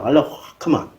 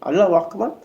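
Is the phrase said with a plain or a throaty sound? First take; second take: throaty; plain. First: It is said with harsh sounds from the throat. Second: It is said plainly, without deep throat sounds.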